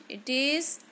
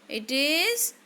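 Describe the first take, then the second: Both takes have the same delivery.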